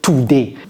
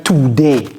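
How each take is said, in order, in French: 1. La première syllabe 'to' est accentuée. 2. La première syllabe 'to' est accentuée.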